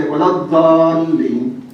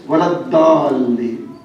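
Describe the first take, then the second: First: Iraqi recitation accent, long-drawn DALLIN; slow Iraqi-accented recitation of "Dallin". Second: Saudi recitation accent, long-drawn DALLIN; slow Saudi-accented recitation of "Dallin". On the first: Preacher shows listeners how Iraqis recite it, Iraqi accent. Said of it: "If you go to Iraq, they are going to say". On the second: Preacher shows listeners how Saudis recite it, Saudi accent. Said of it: "if you go to, uh, Saudi". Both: Shown as a demonstration.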